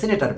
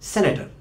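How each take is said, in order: First: The first vowel sounds like 'ee'. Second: The first vowel sounds like 'eh'. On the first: This is the usual local pronunciation. "প্রচলিত উচ্চারণে বাংলাদেশে আমরা সিনেটার বলি" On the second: This is the international pronunciation. "Internationally বলা হয় সেনেটার"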